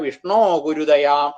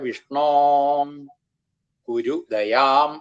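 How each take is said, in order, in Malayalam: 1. വാക്കുകൾ ഇടവേളയില്ലാതെ ഒന്നിച്ചു ചേർന്ന് പോകുന്നു. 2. ആദ്യ വാക്കിന് ശേഷം ഒരു ഇടവേളയുണ്ട്. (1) "ഇങ്ങനെ തുടർച്ചയായിട്ട്" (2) "വിളിക്കുന്ന പോലെ തന്നെ ആയിക്കോട്ടെ"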